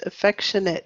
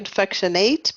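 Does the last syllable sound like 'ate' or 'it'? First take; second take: it; ate. First: The last syllable ends with an 'it' sound. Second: The last syllable ends with an 'ate' sound. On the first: The speaker calls it right. "at the end of a word is it" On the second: The speaker calls it wrong. "I know it looks like affectionate, but we don't say ate"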